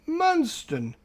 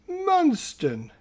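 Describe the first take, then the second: Both takes have the same delivery.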